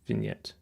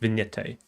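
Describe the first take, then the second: First: The word ends without a final vowel sound. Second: The word ends with an added final vowel sound. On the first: The speaker calls it right. "Nailed it" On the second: The speaker calls it wrong. "Not vignette, which is a type of ice cream"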